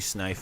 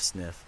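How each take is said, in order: First: The vowel sounds like the one in 'knife'. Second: The vowel sounds like the one in 'if'. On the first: The speaker calls it wrong. "I called you Snife instead of Sniff" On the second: The speaker calls it right. "your preferred prof- pronunciation"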